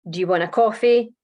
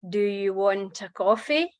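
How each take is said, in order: First: It is said quickly, with words run together. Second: It is said slowly, with words kept apart. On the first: "the original way that you said it with the connected speech" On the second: "but just more slowly"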